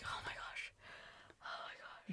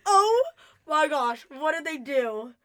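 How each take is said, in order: First: Whispered mock fright; very soft, voiceless retold panic; retold scared reaction. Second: Loud, high mock shock, dropping off; drawn-out dramatic alarm, hammed up; retold freaking out. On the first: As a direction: re-enact being scared, in a hushed whisper. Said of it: "I was so scared". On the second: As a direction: re-enact a freaked-out reaction. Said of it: "I was freaking out".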